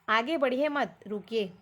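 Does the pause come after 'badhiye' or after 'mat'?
after mat. The pause comes after the word mat. Do not go ahead; stop. "आगे मत बढ़ो, रुको बोल रहा है"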